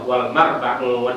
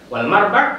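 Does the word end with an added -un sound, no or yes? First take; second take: yes; no. First: The word ends with an added -un sound. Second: The word ends without an added -un sound. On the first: The speaker calls it wrong. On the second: The speaker calls it right.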